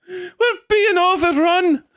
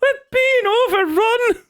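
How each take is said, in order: First: Put-on alarmed old Irishman. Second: Put-on alarmed old Irishman, laughing. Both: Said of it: "the old man".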